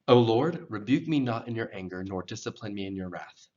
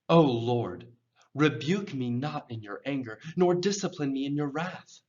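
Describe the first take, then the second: First: It is read flatly, without emotional feeling. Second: It is read as an emotional, pleading cry. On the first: The words are read without conveying their meaning. The speaker calls it wrong. "if I just read it like that, you're missing sort of the meaning of it" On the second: The speaker is desperately asking for help. The speaker calls it right. "I'm crying out, ... It's almost like a request. You can hear it in my voice"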